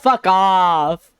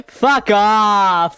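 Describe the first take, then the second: First: Yelling. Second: Loud high yell. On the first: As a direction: yell it again. Repeats shout. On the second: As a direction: shout it back at them. Shouted playful reply. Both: Real, not acted.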